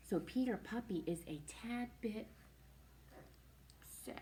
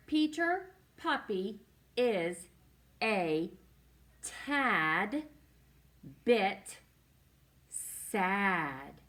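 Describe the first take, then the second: First: Said in the usual way. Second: Slow, with a pause after each word; deliberate beginner-reader pacing, every word separate; word-by-word reading. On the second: Shown as a demonstration. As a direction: read it out one stretched word at a time.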